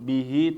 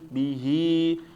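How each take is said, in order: First: The final vowel is short, one beat. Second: The final vowel is held long, two beats. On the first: The speaker calls it wrong. "bukan ... Nah ini keliru ya" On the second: The speaker calls it right. "Jadi ya panjang dua harokat, bukan satu harokat"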